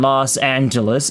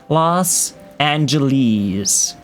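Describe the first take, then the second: First: The name ends without a long E sound. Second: The name ends with a long E sound. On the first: This is the standard form today. "Today's standard English pronunciation" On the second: This was the most common form at the time. "Lummis objected to the long E uh, in the most common of pronunciation"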